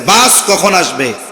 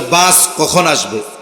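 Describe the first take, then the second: First: It is asked in an impatient, annoyed tone. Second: It is asked as a plain, neutral question.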